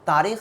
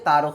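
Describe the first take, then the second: First: The second vowel is a long ee sound. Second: The second vowel is an oo sound. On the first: The speaker calls it wrong. "Sorry तारीख नहीं है" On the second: The speaker calls it right. "तारुख इस तरीके से बोला जाता है"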